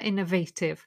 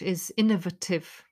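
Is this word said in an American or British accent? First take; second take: American; British. First: It is said in an American accent. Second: It is said in a British accent. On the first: "In America" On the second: "It follows the pattern of the ative"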